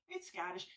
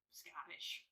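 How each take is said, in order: First: Said in the usual way. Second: Breathy whisper of Scottish; whispered aside. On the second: Acted. Scottish gin, aside to camera.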